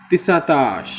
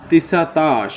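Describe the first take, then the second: The two takes are said the same way.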